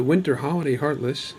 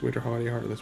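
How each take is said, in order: First: Said in the usual way. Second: Quick, softer rattled-off repeat; fast tongue twister. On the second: Shown as a demonstration. Vlogger trying a tricky enemy name three times fast, rapid. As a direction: rush through it under your breath like a tongue twister. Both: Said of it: "Try to say that three times fast".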